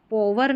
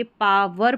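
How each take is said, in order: First: पॉवर with a rounded 'aw' first vowel; wrong pronunciation. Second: पावर with an open 'aa' first vowel; correct pronunciation. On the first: Teacher showing learners the reading to avoid, पॉवर with 'aw'. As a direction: say पॉवर as 'PAW-ver'. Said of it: "पॉवर नहीं पढ़ेंगे". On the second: Teacher settling the reading for learners, पावर with 'aa'. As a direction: say पावर as 'PAA-ver'. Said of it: "तो ये पावर पढ़ा जाएगा". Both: Shown as a demonstration.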